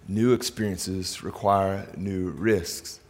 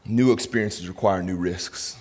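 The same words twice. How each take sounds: First: New experiences require new risks spelled out very slowly, word by word; a deliberate, slowed-down repeat for note-taking; slow dictation pace. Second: Said in the usual way. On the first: Shown as a demonstration. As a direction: say it slowly so they can write it down. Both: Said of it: "I want you to write down in your notes".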